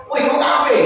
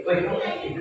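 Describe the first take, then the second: First: Higher-pitched call-out, curt challenge; confrontational intonation. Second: Much softer, with a rising end; different, gentler intonation. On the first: Preacher showing listeners the wrong intonation for addressing non-believers, confrontational. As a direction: call someone out, voice raised in pitch. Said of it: "cuma intonasinya beda". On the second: Preacher showing how intonation changes the same words, softly. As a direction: say it quietly, lifting the last word. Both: Shown as a demonstration.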